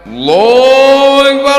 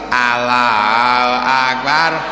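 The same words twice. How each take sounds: First: It is said intensely and seriously. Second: It is said casually, not seriously.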